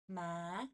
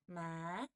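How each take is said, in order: First: The pitch rises from low to high. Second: The same.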